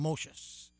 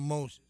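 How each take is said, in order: First: It uses an unfamiliar, non-English pronunciation. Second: It uses the familiar English pronunciation. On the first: This is how the film says the name. "They call him Moses. ... I guess that's the way they pronounce it" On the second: This is how the name is usually said. "they didn't call him Moses"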